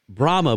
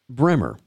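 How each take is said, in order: First: It is said the general, non-Georgia way. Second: It is said the way people in Georgia say it. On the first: "are not pronounced that way in Georgia" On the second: "They're pronounced Bremer"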